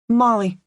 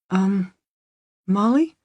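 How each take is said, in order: First: It is said firmly as a statement, falling. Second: It is said as a hesitant question, rising.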